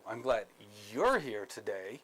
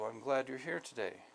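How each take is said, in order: First: It is said in a sarcastic tone. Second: It is said in a sincere, straightforward tone. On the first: The words become a hidden insult. "a sarcastic tone" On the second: The speaker is truly glad to see the person. "that's very clear, straightforward"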